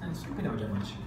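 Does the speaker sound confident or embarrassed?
embarrassed. It is said timidly, without firmness. The speaker does not yet believe it. The speaker calls it wrong. "não falava assim com firmeza ... Com vergonha dele mesmo"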